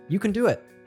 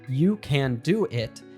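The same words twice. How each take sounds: First: The words are linked and 'can' is reduced. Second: Each word is said fully and separately.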